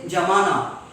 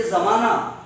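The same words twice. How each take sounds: First: JAMANA with a j replacing z. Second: ZAMANA with a buzzing z; correct Urdu z. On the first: Retold or imitated. Teacher imitating those who can't say z, j in jamana. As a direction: turn the z into J: jamana. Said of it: "they can't pronounce the, uh, sound z". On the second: Shown as a demonstration. Teacher models zamana for the class, buzzing Urdu z. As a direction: start zamana on a true Z. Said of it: "If we have to say zamana".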